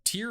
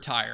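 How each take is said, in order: First: The word rhymes with ear. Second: The word rhymes with fire. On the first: The speaker calls it wrong. "I've been saying the wrong one" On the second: The speaker calls it right. "people were like saying tire"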